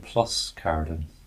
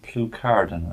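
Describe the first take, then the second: First: The s before the c is pronounced. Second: The s before the c is silent. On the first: "but literally" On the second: "I think it's pronounced"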